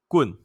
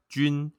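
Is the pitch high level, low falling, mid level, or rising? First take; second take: low falling; high level. First: The pitch starts low and falls. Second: The pitch stays high and level.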